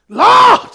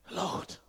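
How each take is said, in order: First: Loud, drawn-out cry of Lord; screamed prayer. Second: Barely audible, whispered Lord; quiet prayer. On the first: Preacher showing you have to scream, shouted plea. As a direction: cry out the word at full force. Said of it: "you have to scream". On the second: Preacher demonstrating prayer before screaming, whispered. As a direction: breathe the word out under your breath. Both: Shown as a demonstration.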